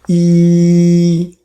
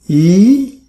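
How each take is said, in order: First: The pitch stays high and level. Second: The pitch rises from middle to high. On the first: "First tone, E flat" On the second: "Second tone, E, E is mm, going up"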